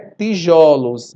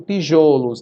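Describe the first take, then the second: First: The stressed o is an open vowel. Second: The stressed o is a closed vowel. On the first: The speaker calls it right. "O plural metafônico é tijolos" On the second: The speaker calls it wrong. "Eu não digo tijolos"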